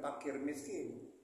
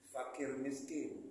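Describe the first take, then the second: First: The first word begins with a P sound. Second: The first word begins with an F sound. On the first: The speaker calls it wrong. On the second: The speaker calls it right. "kira-kira ucapannya F"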